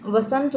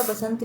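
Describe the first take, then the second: First: "वसंत" opening with v; correct form demonstrated. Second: "बसंत" opening with b; wrong form demonstrated. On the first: Teacher giving right spelling, "वसंत" with v sound. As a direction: say "वसंत" as va-sant. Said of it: "होता". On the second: Teacher rejecting misspelling, "बसंत" with b sound. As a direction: say "बसंत" as ba-sant. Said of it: "नहीं होता है". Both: Shown as a demonstration.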